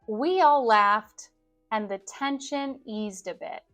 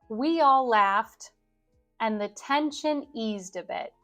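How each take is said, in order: Both takes have the same delivery.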